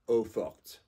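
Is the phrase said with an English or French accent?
French. It is said with a French accent. "If it was French, it would be"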